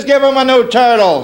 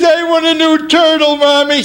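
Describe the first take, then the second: First: Lightly voiced mother, pitched up; a hint of a mom giving orders. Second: Put-on high-pitched little boy pleading; spoiled brat. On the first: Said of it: "She says". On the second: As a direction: demand it from mom in a child's voice. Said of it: "I was a spoiled brat".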